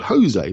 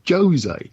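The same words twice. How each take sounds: First: It is pronounced the Spanish way. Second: It is pronounced the Portuguese way. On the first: The speaker calls it wrong. "if he's Spanish, it's called Jose" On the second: The speaker calls it right. "but he's Portuguese and it's Jose"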